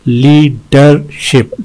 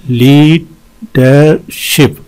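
First: "लीडरशिप" slowly, in three beats; syllable breakdown. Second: "लीडरशिप" very slow, with long gaps; wide syllable breakdown. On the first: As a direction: separate each syllable of "लीडरशिप". ("लीडरशिप" तीन हिस्सों में धीरे) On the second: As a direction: pause after each syllable of "लीडरशिप". ("लीडरशिप" हर हिस्से पर रुककर, बहुत धीरे) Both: Shown as a demonstration. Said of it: "इसमें तीन हैं".

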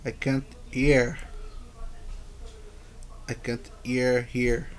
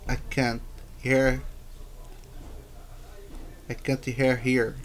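The two takes are said the same way.

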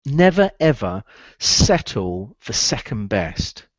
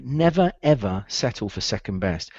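First: "never, ever settle for second best" said slow and deliberate; drawn-out slow lesson line; slow emphatic. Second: Said in the usual way. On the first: Shown as a demonstration. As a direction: dictate it word by word. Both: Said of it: "write this one down".

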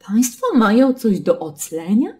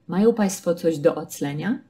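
First: Lightly voiced surprised customs officer, higher and louder; a bored officer faking surprise; Państwo mają coś do oclenia, raised and surprised; mock surprised official. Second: Said in the usual way. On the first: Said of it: "takie zaskoczone zdanie". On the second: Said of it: "Kompletnie neutralne pytanie".

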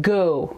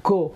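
First: گو with a gliding English o; گو as the English "go", o sliding to oo. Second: گو with a flat Persian vowel; گو with a Persian o, no glide; wrong Persian-style go. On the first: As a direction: round گو into an English ow glide. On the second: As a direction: say گو like Persian "go", the o pure and short. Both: Shown as a demonstration.

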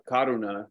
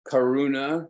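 First: Karuna said with a light tapped R, like ka-du-na; Pali pronunciation. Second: Karuna said with an English R, kuh-ROO-nuh; anglicized pronunciation. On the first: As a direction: karuna with a quick flapped R, original Pali sound. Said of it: "probably pronounced more like karuna if you spoke the original language". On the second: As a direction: karuna with a rolled-back American R. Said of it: "probably pronounced more like karuna". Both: Shown as a demonstration.

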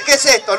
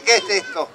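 First: "¿Qué es esto?" said louder, as asked; louder, clear restatement of "¿Qué es esto?"; repeating the question. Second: "¿Qué es esto?" with a garbled extra "te"; lower, muddled "¿Qué es esto?", like "qué est'esto"; mock misheard question. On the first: Performer corrects the children, restating "¿Qué es esto?" loudly. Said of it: "Yo dije". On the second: Performer mocks what children heard, garbling "¿Qué es esto?". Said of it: "No dije". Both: Shown as a demonstration.

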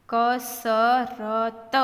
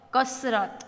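First: Slow, four separate syllables; sounded out. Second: Said in the usual way. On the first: Shown as a demonstration. Teacher modelling reading for learners, sounded out. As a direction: stretch કસરત out as ka-sa-ra-ta.

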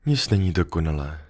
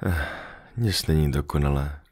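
First: Sighing. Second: A soft sigh, then the words let out quietly; sighing fox. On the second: The fox sighing softly to the little prince that nothing is perfect. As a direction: breathe it out, resigned and soft. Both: Acted. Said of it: "povzdechla si liška".

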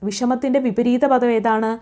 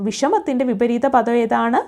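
No difference in how they are said.

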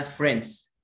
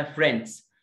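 First: American-style one-syllable فريندز; American pronunciation. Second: British-style one-syllable فريندز, slight D; British pronunciation. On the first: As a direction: say فريندز as 'frenz', D dropped. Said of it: "امريكان اسمها". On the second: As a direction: say فريندز with a light D before the final S. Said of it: "بريتش اسمها". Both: Shown as a demonstration.

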